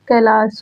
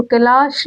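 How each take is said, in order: First: "कैलाश" ending in a dental s; correct dental sibilant. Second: "कैलाश" ending in a hushing sh; wrong sibilant. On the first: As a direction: say "कैलाश" as kai-laas. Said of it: "दंत्य शा का". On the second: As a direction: say "कैलाश" as kai-laash. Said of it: "मूर्धन्य शा का प्रयोग नहीं". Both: Shown as a demonstration.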